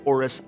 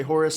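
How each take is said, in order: First: Oris with no H, starting straight on the vowel; silent H. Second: Horus with a sounded H at the start; H pronounced. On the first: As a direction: drop the H and open on the O of Oris. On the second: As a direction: say Horus, voicing the opening H clearly. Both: Shown as a demonstration. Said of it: "pretty sure the H is pronounced".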